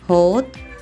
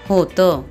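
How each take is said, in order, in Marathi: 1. शब्दाचा शेवट फक्त व्यंजनाने होतो. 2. शब्दाचा शेवट छोट्या 'uh' स्वराने होतो.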